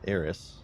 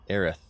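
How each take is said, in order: First: The name ends with a plain s sound. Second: The name ends with a lisped th sound. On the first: "because that's how it's spelled" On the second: "like they have a lisp"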